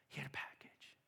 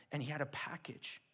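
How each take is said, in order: First: Breathy hushed repeat, much softer; hushed storyteller secret; suspenseful whisper. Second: Said in the usual way. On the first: Acted. Dramatic build in the story.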